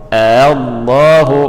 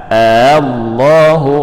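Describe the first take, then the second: No difference in how they are said.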